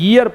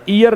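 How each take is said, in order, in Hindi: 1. यह शब्द 'y' ध्वनि से शुरू होता है। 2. यह शब्द सादी स्वर ध्वनि से शुरू होता है। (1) "ये से पढ़ना है, ईयर पढ़ना है" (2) "ई से नहीं पढ़ना है, ईयर नहीं पढ़ना है"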